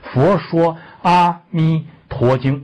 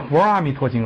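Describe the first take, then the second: First: Every syllable, including shuo, is said clearly. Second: The syllable shuo is swallowed and barely heard. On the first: The speaker calls it right. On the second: The speaker calls it wrong.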